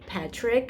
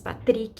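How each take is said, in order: First: The name has an English pronunciation. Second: The name has a Portuguese pronunciation. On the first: "but we could say Patrick as well" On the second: "in Portuguese, the way we pronounce it"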